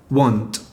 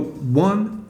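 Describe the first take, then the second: First: The final T is fully released. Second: The final T is stopped, not released. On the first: "instead of want" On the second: "So you go one"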